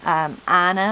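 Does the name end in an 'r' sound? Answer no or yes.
no. The name ends in a plain vowel sound.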